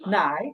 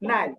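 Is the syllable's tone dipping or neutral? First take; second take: dipping; neutral. First: The syllable has a low dipping tone. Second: The syllable is light with a neutral tone. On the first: "সিলেবলের উপরে আছে কি third tone" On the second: "neutral যেটা সেটা হবে নাই নাই"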